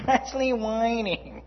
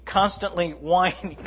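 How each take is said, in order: First: Laughing through the words; higher, slower, laughing. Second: Said in the usual way. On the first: Shown as a demonstration. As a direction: chuckle while repeating it. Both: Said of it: "repeated with laugh".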